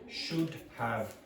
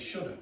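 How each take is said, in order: First: Both words are said fully and separately. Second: The words blend into one, ending in 'uh'. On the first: The speaker calls it wrong. "a native speaker is not going to say should have" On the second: The speaker calls it right. "they're going to say shoulda"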